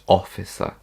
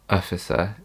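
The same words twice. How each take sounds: First: The first vowel is a full O sound. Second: The first vowel is a weak schwa. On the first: The speaker calls it right. "It's officer" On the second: The speaker calls it wrong. "But it's not officer. It's not uh"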